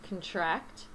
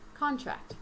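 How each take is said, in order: First: The stress is on the second syllable. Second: The stress is on the first syllable. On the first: It is used as a verb. "The first one is a verb" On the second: It is used as a noun. "The second, a noun"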